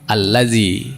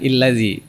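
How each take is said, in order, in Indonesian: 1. Kata ini dimulai dengan vokal a. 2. Kata ini dimulai dengan vokal i. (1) "maka otomatis dibaca A" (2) "bukan illazi"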